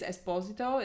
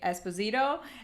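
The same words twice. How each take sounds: First: The name is said the Italian way. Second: The name is said the American way. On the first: "is the Italian way to pronounce it" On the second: "Most people in the U S say Esposito"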